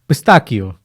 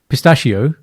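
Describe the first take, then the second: First: The middle consonant is a 'k' sound. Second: The middle consonant is an 'sh' sound. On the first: The speaker calls it right. "the way to remember that one is it's uh, Pinocchio" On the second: The speaker calls it wrong. "not pistachio"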